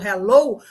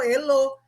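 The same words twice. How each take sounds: First: The H is sounded, as in English. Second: The H is silent, read as Portuguese. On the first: The speaker calls it right. "me ouviu falando hello" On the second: The speaker calls it wrong. "ela vai ler como hello, porque H E em português é E"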